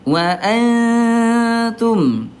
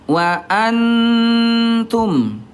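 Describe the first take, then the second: First: The n is hidden with a light nasal hum. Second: The n is pronounced fully and clearly. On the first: The speaker calls it right. "yang betul adalah yang ketiga" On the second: The speaker calls it wrong. "yang ke satu itu tadi dia idhar"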